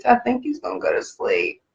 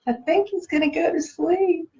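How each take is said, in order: First: Said in the usual way. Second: Higher and softer, cooing over the sleepy puppy. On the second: Real, not acted. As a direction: coo it so he drifts off.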